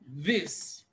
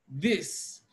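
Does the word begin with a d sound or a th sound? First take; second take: th sound; th sound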